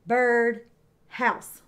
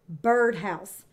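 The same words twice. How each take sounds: First: Birdhouse pulled apart as bird, pause, house; a clear gap after bird in birdhouse; split into syllables. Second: Said in the usual way. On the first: Shown as a demonstration. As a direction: say birdhouse in two separate beats. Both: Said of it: "divide 'em into syllables".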